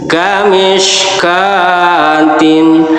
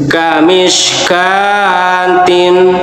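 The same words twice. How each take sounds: Both takes have the same delivery.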